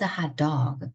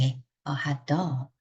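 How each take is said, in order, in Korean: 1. 강세는 hot이라는 단어에 옵니다. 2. 강세는 dog라는 단어에 옵니다. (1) "우리 먹는 핫도그인 거고" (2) "명사가 더 중요하기 때문에"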